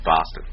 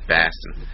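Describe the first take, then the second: First: The first vowel is an 'o' sound. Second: The first vowel is an 'a' sound.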